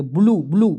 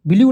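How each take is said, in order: First: "ब्लू" said as plain bloo, no y glide; correct pronunciation. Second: "ब्लू" stretched as bi-li-yoo, with an extra yoo glide; wrong reading. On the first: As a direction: say "ब्लू" short and clean as bloo. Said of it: "ब्लू पढ़ेंगे". (सही उच्चारण "ब्लू") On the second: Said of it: "ब्लू नहीं पढ़ेंगे". (गलत उच्चारण "ब्लू" (बिल्यू)) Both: Shown as a demonstration.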